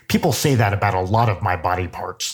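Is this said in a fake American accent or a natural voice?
fake American. It is said in a fake American accent.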